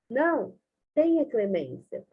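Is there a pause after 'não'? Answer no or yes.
yes. It is said with a pause after 'não'. It asks for mercy. "ou salvar"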